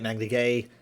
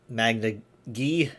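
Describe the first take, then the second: First: The second word sounds like 'gay'. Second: The second word sounds like 'gee'. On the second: "Some people say it Magna, uh, Magna G"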